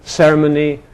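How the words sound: British accent with a reduced suffix vowel. This is the newer pronunciation. "the British one"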